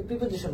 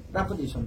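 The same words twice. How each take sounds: First: প্রিপোজিশন said the usual local way, with a clear "pri" and a full "shon" ending; প্রিপোজিশন as students usually say it, "pri-po-ji-shon"; common Bengali way. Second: প্রিপোজিশন with a reduced "pra" start and a clipped final "sho(n)"; actual pronunciation. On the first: Teacher showing students the common way to say প্রিপোজিশন, plainly. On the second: Teacher correcting students, modelling the true sound of প্রিপোজিশন. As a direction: say প্রিপোজিশন the English way, "pra-po-ZI-shn". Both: Shown as a demonstration. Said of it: "actual pronunciation হলো প্রিপোজিশন".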